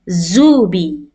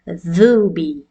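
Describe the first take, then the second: First: It begins with a buzzing z sound. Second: It begins with a light th sound. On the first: The word's meaning changes. The speaker calls it wrong. "It's not Z like a, a buzzing sound" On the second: The intended word is said. The speaker calls it right. "much lighter than this letter"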